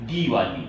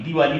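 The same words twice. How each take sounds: First: दिवाली as DEE-waa-li, lower pitch; long I. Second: दिवाली with a quick short di; wrong short I. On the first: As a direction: hold the first vowel of दिवाली as a long dee. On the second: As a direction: clip the first vowel of दिवाली to di. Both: Shown as a demonstration. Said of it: "दिवाली नहीं".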